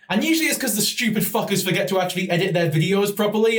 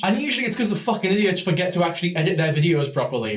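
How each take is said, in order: First: Said in the usual way. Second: A quicker, run-together first take of the line; rushed take. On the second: Acted. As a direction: rattle it off a bit fast. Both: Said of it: "don't do that again".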